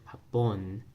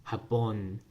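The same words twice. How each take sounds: First: The stress is on the last syllable. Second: The stress is on the last syllable.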